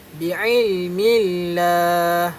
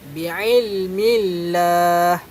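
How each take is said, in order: The two takes are said the same way.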